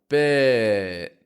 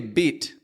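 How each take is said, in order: First: The final T sound is stopped, not released. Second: The final T sound is clearly released. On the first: The speaker calls it right. "I put more power into that I vowel, bit. I stop the T" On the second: The speaker calls it wrong. "I don't say beat"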